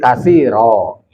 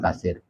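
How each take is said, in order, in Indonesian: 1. Kata ini diakhiri dengan bunyi vokal. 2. Kata ini diakhiri dengan konsonan r. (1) "kalau kasiron diwakofkan jadi kasiro" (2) "Bukan kasir"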